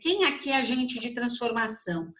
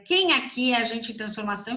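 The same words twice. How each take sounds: First: The question is said at normal volume. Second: The question is shouted very loudly.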